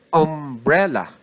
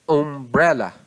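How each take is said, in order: The two takes are said the same way.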